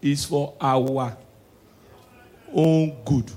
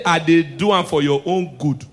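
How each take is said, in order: First: "own good" said slow and soft; slow corrected phrase. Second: Said in the usual way. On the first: Shown as a demonstration. Comedian correcting the saying, slow and soft. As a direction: drag out "is for our own good". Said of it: "corrected phrase". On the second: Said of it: "not say".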